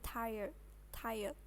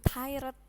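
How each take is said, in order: First: "tired" said softly as TAI-yed, R turned into Y; faint R. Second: "tired" said TAI-red with a full Indonesian R; clearly pronounced R. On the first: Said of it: "R-nya cuma samar-samar". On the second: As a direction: show the mistaken "tired", sounding the R fully, tai-red. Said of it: "Bukan tired, bukan". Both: Shown as a demonstration.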